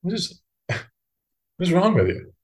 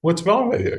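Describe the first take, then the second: First: Higher-pitched, laugh-broken disbelief; mock-exasperated inner voice; incredulous thought. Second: High, quick mock exasperation; baffled inner voice, raised in pitch; incredulous thought. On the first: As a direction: question it as if baffled, half laughing. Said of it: "And I just think". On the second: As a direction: toss it out in pitched-up disbelief. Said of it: "this kind of idea appears in my head".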